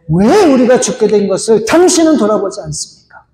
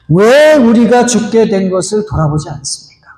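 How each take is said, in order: First: It is said forcefully with anger. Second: It is said calmly and gently.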